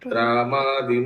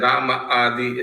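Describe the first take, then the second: First: The two words are run together. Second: The two words are said separately. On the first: The speaker calls it right. "ऐसे बोलिए" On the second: The speaker calls it wrong. "ऐसे नहीं पढ़ते"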